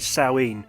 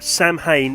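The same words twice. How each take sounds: First: The name is pronounced the Gaelic way. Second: The name is pronounced the English way. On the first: The speaker calls it right. "It's actually Samhain" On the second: The speaker calls it wrong. "Samhain is not the proper pronunciation"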